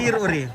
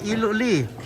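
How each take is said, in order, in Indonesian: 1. Kata-kata itu diucapkan dengan bunyi R. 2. Kata-kata itu diucapkan dengan bunyi L.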